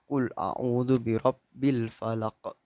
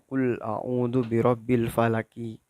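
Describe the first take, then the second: First: The phrase ends on a bounced final stop. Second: The phrase ends with an added final vowel. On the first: The speaker calls it right. "tapi dipantulkan" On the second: The speaker calls it wrong. "Bukan dibaca"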